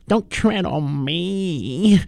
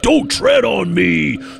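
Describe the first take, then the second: First: It is said timidly and meekly. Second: It is said fiercely and forcefully.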